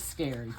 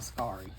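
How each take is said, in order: First: The vowel sounds like the word 'air'. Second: The vowel sounds like the word 'cat'. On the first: The speaker calls it right. "it's scary" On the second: The speaker calls it wrong. "not Scarry"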